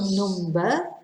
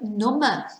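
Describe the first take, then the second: First: The B sound in the middle is pronounced. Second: The B sound in the middle is silent. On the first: It refers to a counting figure. "number is one pronunciation" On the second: It means less able to feel. "where the B is silent"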